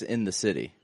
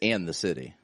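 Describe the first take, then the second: First: The first word is reduced to 'in'. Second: The first word is a full 'and'. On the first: The speaker calls it wrong. "Sounds like sex, sex in the city" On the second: The speaker calls it right. "it's and the city"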